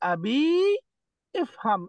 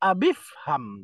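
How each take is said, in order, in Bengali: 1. শব্দ দুটি আলাদা, 'i' ধ্বনিসহ উচ্চারণ হয়। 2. শব্দ দুটি মিলে যায়, 'i' ধ্বনি ছাড়া উচ্চারণ হয়। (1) "এরকম পড়া যাবে না" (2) "কি পড়তে হবে?"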